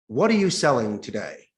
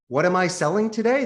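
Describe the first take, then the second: First: It is said in a curt, negative tone. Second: It is said in a warm, smiling tone.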